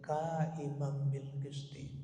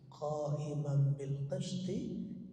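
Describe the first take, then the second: First: The first sound is a plain front k. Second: The first sound is a deep back-of-throat q. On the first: The speaker calls it wrong. "Itu sekali lagi awas ya" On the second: The speaker calls it right. "kadang-kadang qaf ini jadi ka gitu ya"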